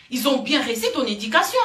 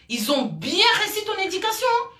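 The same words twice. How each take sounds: First: Said in the usual way. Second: Much higher, mocking "Ils ont bien réussi ton éducation"; biting sarcasm, voice jumping up; sarcastic. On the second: Real, not acted. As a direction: drip scorn with a pitched-up fake compliment. Same line repeated, sarcastic.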